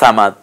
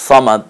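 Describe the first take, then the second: First: The first consonant is light and soft. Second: The first consonant is heavy, with rounded lips. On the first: The speaker calls it wrong. "আর সা দিয়ে বলেন সামাদ" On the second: The speaker calls it right. "আপনি সদ বলেন আল্লাহ সমাদ"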